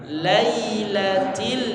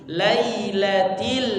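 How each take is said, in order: No difference in how they are said.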